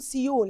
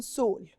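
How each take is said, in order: First: سيول said as see-ool, two syllables; wrong Seoul. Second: سول said as one syllable, sole; right Seoul. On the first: Teacher showing students the wrong way: سيول as see-ool. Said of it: "مش بنقول سيول". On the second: Teacher giving students the right way: سول as sole. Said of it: "إحنا بنقول سول". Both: Shown as a demonstration.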